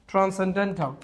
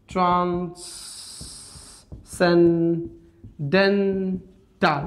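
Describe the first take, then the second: First: Said in the usual way. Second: transcendental very slowly, four separated syllables; broken up. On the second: Shown as a demonstration. Teacher showing how to break a word, very slow syllables. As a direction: stretch each syllable of transcendental with long pauses. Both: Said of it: "ভেঙে পড়তে হবে".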